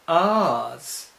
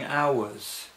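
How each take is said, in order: First: The word is squeezed into one posh syllable. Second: The word is spread over two syllables. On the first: "that's the very posh, what's called received pronunciation way of saying hours" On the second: "the word hours has two syllables here"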